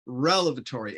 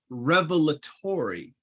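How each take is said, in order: First: The word begins with rel, then ev. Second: The word begins with rev, then el. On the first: The speaker calls it wrong. "not relevatory" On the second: The speaker calls it right. "It's revelatory"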